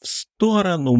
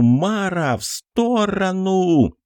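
First: High, piercing warning shout; wild yell. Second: High drawn-out desperate shout; wild yell. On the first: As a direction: scream the warning across the room. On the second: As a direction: yell it slow and long as a warning. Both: Acted. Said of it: "Диким криком заорал Кокос".

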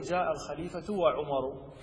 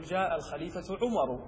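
First: جاء الخليفة وعمر drawn out slowly, each word spaced; deliberate slow counterexample; slow wrong example. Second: Said in the usual way. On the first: Shown as a demonstration. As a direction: spell out the wrong form slowly. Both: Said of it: "ما تقول".

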